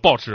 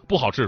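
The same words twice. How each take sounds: First: Some syllables are swallowed and run together. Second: Every syllable is pronounced fully.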